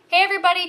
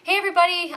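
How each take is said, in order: First: The greeting is said loudly, almost yelled. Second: The greeting is said in a softer voice. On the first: "I'm yelling again" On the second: "I feel like I have to like purposely speak softer"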